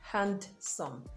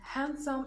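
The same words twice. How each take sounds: First: The D is pronounced in the word. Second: The D is silent in the word. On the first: The speaker calls it wrong. "not handsome. That would be really clumsy" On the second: The speaker calls it right. "Notice I'm saying handsome"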